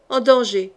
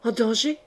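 First: Firm, emphatic reply; forceful repetition. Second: Understated, rising alarmed question; questioning cry. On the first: Sorcerer insisting to Laurence on the danger, forceful. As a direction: repeat it with force, settling the question. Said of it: "répéta fortement le sorcier". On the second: Mother hearing her daughter is in danger, questioning. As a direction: ask it softly, voice lifting in disbelief. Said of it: "cria Laurence". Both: A narrator's reading.

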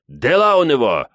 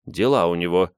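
First: Higher, louder call; loud report over a crowd; relayed shout. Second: Said in the usual way. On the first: A narrator's reading. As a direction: shout it across to someone. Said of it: "кричит Мурату Абдул". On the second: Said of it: "поясняет Гвоздь".

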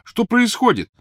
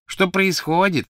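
First: Calling out. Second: High, slow mocking echo; mocking imitation. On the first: Acted. Ron shouts through wall. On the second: Crabbe mocks Ron's question, slow and high. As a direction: drag out Ron's words to taunt. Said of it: "передразнил Крэбб".

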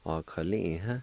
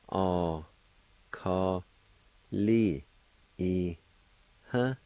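First: Said in the usual way. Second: "A, ka, li, i, huh" in separate, drawn-out syllables; syllable-by-syllable pronunciation. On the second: Shown as a demonstration. Teacher showing learners how feeling is pronounced, syllable by syllable. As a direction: sound out "A, ka, li, i, huh" with a pause after each. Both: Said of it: "It's pronounced like this".

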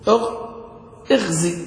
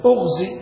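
First: اغزي begun with "i", as ighzi; اغزي pronounced "ighzi", first vowel i; kasra on the hamza. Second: أغزي begun with "u", as ughzi; أغزي pronounced "ughzi", first vowel u; damma on the hamza. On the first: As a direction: start اغزي on a short i. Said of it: "والزين تحت كسر". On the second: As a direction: start أغزي on a short u. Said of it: "وإنما قالت". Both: Shown as a demonstration.

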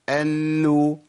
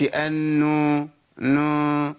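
First: أنو with hummed n, then a clean oral u; أنو with no nasality in the closing vowel; clean final damma. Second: أنو with the hum leaking into a drawn-out u; wrongly nasal, lengthened نو ending; nasalised vowel, mistake. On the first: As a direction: finish the hum before the u of أنو. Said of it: "أخلص الإيه؟ الضمة". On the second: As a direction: let the final u of أنو ring through the nose. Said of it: "الحركة ما فيهاش غنة". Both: Shown as a demonstration.

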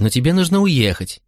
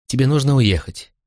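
First: Higher-pitched motherly pleading; acted anxious insistence; urgent insistence. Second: Put-on reasoning gently with a child; coax, with a slightly raised pitch on "нужно"; mild motherly persuasion; gentle urging. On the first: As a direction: press the point, lifting "нужно" high. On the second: Mother first reasons with son. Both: A narrator's reading.

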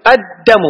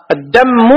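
First: "الدم" with doubled d and single m; doubled dal, light mim. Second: "الدم" as ad-dammu, doubled m; mistaken doubled mim. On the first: Teacher modelling the correct word, "الدم" with light m. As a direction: lean on the d of "الدم", release the m lightly. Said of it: "بتشديد الدال وتخفيف الميم". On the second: Teacher showing students the mistake, "الدم" with doubled m. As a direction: double the m of "الدم" before a final u. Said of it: "هذا غلط". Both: Shown as a demonstration.

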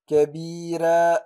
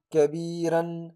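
First: "كبيرا" ending in a short long-a, kabira; right pause form. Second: "كبيرا" with the nunation kept, kabiran; don't drop the n: say "كبيرا" as kabiran; wrong full tanween. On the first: Teacher showing the right stop kabira. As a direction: stop on "كبيرا" as kabira, alif of two counts. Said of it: "لكن أقول". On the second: Teacher showing the wrong reading kabiran. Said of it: "لا نقول". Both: Shown as a demonstration.

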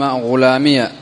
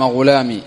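First: غلامي said ghulāmiya, the final ya voweled with a; غلامي ending in an opened ya, ghulāmiya; ya with fatha. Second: غلامي with a silent final ya, ending ghulamī; ya sakina. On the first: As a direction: add a short a after the ya in غلامي. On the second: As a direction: end غلامي on a long unvoiced ī with no vowel after. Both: Shown as a demonstration. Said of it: "مفتوحة أو ساكنة".

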